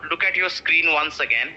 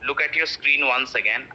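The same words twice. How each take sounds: The two takes are said the same way.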